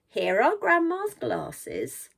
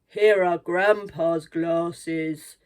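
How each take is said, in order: First: It is said in a high voice. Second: It is said in a low voice.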